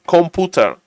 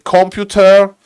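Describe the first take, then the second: First: It is said with a Polish pronunciation. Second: It is said with an English pronunciation. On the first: "in Polish, you say you say computer, computer" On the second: "In English, you say computer"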